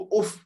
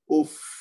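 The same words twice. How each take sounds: First: The final f sound is cut short quickly. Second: The final f sound is held a little longer. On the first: The speaker calls it wrong. "इसको उफ जल्दी में नहीं कहना" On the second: The speaker calls it right. "इसकी आवाज थोड़ी सी जारी रखेंगे"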